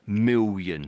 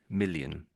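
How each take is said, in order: First: The double L sounds like a W. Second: The double L is a clear L sound. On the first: The speaker calls it wrong. "that's putting a W in there" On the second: The speaker calls it right. "just million"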